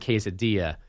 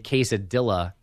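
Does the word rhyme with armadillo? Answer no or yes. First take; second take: no; yes. First: The ending does not sound like armadillo. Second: The ending sounds like the end of armadillo. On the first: The speaker calls it right. "Because it's quesadilla" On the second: The speaker calls it wrong. "say quesadilla instead of quesadilla, which is completely unacceptable"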